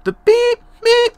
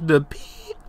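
First: Voice cracking. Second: Said in the usual way. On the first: Real, not acted. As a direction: voice cracks way up high on beep. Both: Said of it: "my voice cracked".

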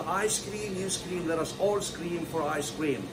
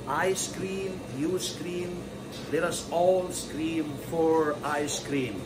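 First: Quick pronunciation. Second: Slow, stretched words with pauses; slow speed. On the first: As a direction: run it together without pauses. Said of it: "تعالى كده نقولها بسرعة". (نطق سريع) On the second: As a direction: draw out each phrase for learners. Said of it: "ده السرعة البطيئة وهي اسمها slow speed". (سرعة بطيئة) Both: Shown as a demonstration.

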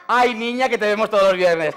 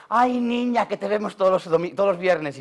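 First: Put-on higher, louder sweet old lady call; old village lady voice, a bit louder; old ladies' voice. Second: Lightly voiced old lady, gentle; a hint of a sweet old lady; softer old ladies' voice. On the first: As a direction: imitate an old lady greeting her warmly. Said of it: "decían". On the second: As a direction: quieter old woman greeting. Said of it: "las viejucas parándome y dice".

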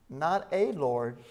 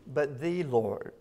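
First: Not a Lord, slow, weight on a; stress on a. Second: But the Lord, slow, the stressed hard. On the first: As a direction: lean slowly on a in not a Lord. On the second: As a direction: press the word the, slowly. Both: Shown as a demonstration. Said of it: "emphasize that word".

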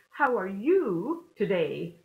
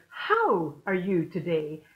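First: Slow it down and land the weight on "you"; "you" is the peak word, the others stay light; stress on YOU. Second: Weight on "How", not on "you"; stress on HOW. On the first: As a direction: lean hard on "you" in "How are you today?", slow. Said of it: "So emphasis on the you". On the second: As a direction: hit "How" first and hardest, said slowly. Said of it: "what was the difference there?". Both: Shown as a demonstration.

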